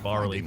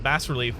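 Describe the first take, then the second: First: It is said with an American pronunciation. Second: It is said with a British pronunciation. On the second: "the U K pronunciation"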